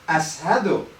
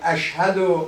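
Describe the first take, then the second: First: The middle consonant is an s sound. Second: The middle consonant is an sh sound. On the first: The speaker calls it wrong. "he said" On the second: The speaker calls it right. "Instead of"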